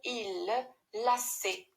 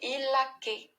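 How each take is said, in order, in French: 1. La consonne est un son s. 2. La consonne est un son k. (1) "il faut ajouter la cédille" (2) "Sinon, c'est il laquait"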